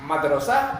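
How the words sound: The vowels are said as clear 'a'.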